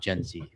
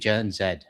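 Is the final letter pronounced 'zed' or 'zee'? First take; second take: zee; zed. First: The letter is pronounced as zee. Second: The letter is pronounced as zed. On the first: This is the American way of saying it. The speaker calls it wrong. "not Gen Z" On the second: This is the Canadian way of saying it. The speaker calls it right. "It should be Gen Z, not Gen Z"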